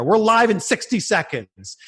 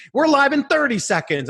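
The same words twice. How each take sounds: First: Producer countdown. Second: Higher, more urgent countdown in the earpiece; urgent producer countdown. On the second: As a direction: push "thirty" up, the clock is running out. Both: Retold or imitated. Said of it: "my producer's like".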